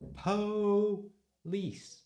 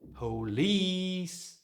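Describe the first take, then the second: First: The stress is on the first syllable. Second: The stress is on the second syllable. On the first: The speaker calls it wrong. "would you shout police?" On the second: The speaker calls it right. "It's that one. ... Lease is strong in this word"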